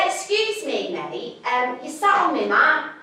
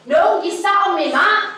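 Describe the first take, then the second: First: Politely asking the hippie to move; a mild, overly polite request. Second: Louder and higher, firmly repeating it; insistent. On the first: To the hippie on her yoga mat, polite. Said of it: "I was polite". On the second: To the hippie who won't move, insistent. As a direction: raise the voice, insisting this time. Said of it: "He did it again". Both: Retold or imitated.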